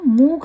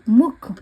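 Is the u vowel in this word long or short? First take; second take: long; short. First: The u vowel is long and drawn out. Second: The u vowel is short and quick. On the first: The speaker calls it wrong. "इसको मुख नहीं बोल सकते आप" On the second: The speaker calls it right. "जैसे मुख"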